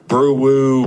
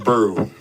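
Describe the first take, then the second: First: The name is said with two syllables. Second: The name is said with one syllable. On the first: The speaker calls it wrong. "they be saying brew woo" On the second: The speaker calls it right. "It's just brew, like brewing coffee"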